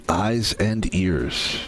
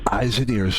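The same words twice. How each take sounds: First: Eyes and ears stretched very slowly, lower; slow, drawn-out reminder. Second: Said in the usual way. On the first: Real, not acted. Streamer warns viewers, very slow drawn-out reminder. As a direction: let each word of Eyes and ears hang slowly.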